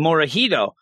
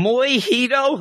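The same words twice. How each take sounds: First: Said in the usual way. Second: Moihito, high-pitched with the R dropped; mispronounced name. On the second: Retold or imitated. Little girl trying a boy's name, high mispronounced "Moihito". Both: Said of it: "she can't say the name".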